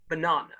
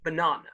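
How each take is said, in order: First: It is said in a southern English accent. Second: It is said in a southern English accent.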